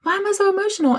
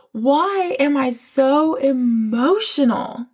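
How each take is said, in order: First: Much higher, exasperated repeat; high bewildered self-quote. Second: Drawn-out, slow mock puzzlement; slow bewildered self-quote. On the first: Retold or imitated. To herself during prayer, high exasperated repeat. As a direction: pitch it way up, baffled. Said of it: "I'm like". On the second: To herself during prayer, slowly drawn-out bewilderment. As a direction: stretch each word as if lost in tears. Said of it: "And I'm like".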